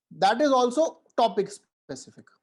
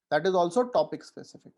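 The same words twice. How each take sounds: First: Each word slow, high and loud; emphatic stress. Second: Said in the usual way. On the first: Shown as a demonstration. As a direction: drive the point home word by word. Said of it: "stressed slow repeat of the rule". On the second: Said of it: "plainer repeat of the rule".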